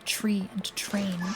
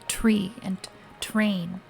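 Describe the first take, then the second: First: The words begin with a CH sound. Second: The words begin with a clear T sound. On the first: The speaker calls it wrong. "instead of tree and train" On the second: The speaker calls it right. "I made an effort to say tree and train"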